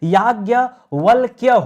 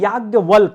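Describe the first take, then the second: First: The word ends in a 'kya' sound. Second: The word ends in a plain 'k' sound. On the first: The speaker calls it right. "याज्ञवल्क्य होता है" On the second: The speaker calls it wrong. "हम लोग बोलते हैं याज्ञवल्क, गलत है"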